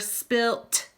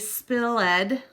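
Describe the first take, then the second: First: The word ends with a t sound. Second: The word ends with an extra ed syllable. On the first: "or spilt" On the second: "We wouldn't say spilled"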